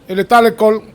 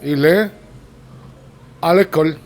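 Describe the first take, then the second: First: It runs together with no pause after il est. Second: There is a pause after il est. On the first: "all at once, just like one stream of sound" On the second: "Il est, you pause, you pause"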